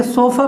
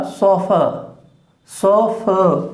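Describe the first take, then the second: First: सोफा with a full open A at the end; wrong pronunciation. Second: सोफा with long O and a weak uh at the end; schwa ending. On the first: Teacher shows students the wrong सोफा, full final आ. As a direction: end सोफा on a clear long आ. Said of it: "pronunciation नहीं है इसका". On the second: Teacher models सोफा for students, ending in schwa. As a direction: stretch the सो, then relax the फा to fuh. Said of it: "सोफा pronunciation नहीं है इसका". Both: Shown as a demonstration.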